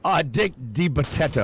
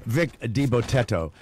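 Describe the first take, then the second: First: "Dick DiBotetto" with a hard D at the start of Dick; wrong name. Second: "Vic DiBotetto" with a clear V starting Vic; corrected name. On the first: Host misreading the guest's name on air, "Dick DiBotetto" with a D. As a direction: say "Dick DiBotetto", putting D where the V belongs. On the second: Host correcting the guest's name, "Vic DiBotetto" with a clear V. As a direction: fix it: "Vic DiBotetto", V not D. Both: Real, not acted. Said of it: "Vic, Vic".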